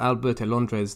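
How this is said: The name is said in a Spanish accent.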